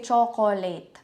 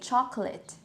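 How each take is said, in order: First: The middle vowel is clearly pronounced. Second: The middle vowel is very reduced. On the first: The speaker calls it wrong. "you don't say chocolate" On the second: The speaker calls it right. "the schwa sound kasi is very, very subtle lang"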